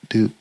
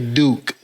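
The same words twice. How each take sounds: First: The word is said flatly, without much energy. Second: The word is said with strong, passionate energy. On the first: The speaker calls it wrong. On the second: The speaker calls it right. "a little more passion"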